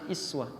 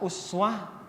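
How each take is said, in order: First: The word begins with a front 'i' vowel. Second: The word begins with a rounded 'u' vowel. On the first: "bisa iswah. ... Berharakat kasrah" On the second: "Bisa uswah"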